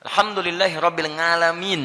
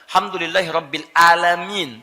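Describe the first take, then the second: First: The article is dropped and alamin runs together. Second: Alamin starts with a plain glottal stop. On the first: It becomes unclear and loses its meaning. "ain disatukan jadi satu, alif lam hilang" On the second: It means Lord of those who are sick. "Tidak pakai ain bacanya tapi pakai hamzah"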